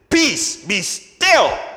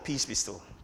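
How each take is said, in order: First: It is said loudly, almost shouted. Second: It is said calmly and quietly.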